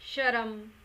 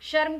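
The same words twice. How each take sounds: First: A full vowel separates the r and m. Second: The r joins straight onto the m. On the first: The speaker calls it wrong. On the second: The speaker calls it right.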